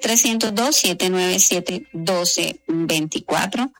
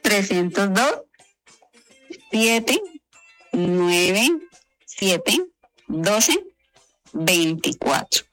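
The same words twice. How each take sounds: First: It is said quickly. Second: It is said slowly.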